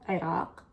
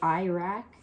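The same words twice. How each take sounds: First: The word is said with Arabic sounds. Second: The word is said with English-style sounds. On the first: The speaker calls it right. "the proper pronunciation, at least in Arabic, the way we say it is Iraq" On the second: The speaker calls it wrong. "I don't know why people say Iraq"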